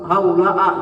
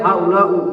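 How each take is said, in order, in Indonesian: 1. Kata itu diakhiri dengan vokal a. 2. Kata itu diakhiri dengan vokal u. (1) "enggak boleh" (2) "enggak boleh"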